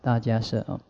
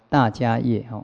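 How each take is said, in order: First: The last syllable is pronounced 'she'. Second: The last syllable is pronounced 'ye'. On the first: The speaker calls it right. "Kassapa 应该也是比较像摄的" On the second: The speaker calls it wrong. "请诸位呢千万不要叫大迦叶"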